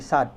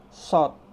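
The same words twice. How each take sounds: First: "sad" with an open a; Latin spelling reading. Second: "Sod" louder, lips pushed forward; emphatic dark, rounded "Sod". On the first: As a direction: say "sad" unrounded, as spelt. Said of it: "Jangan dibaca latinnya". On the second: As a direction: pout firmly on "Sod". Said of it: "mulut kita harus monyong". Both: Shown as a demonstration.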